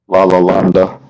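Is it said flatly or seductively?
flatly. It is said flatly, without passion.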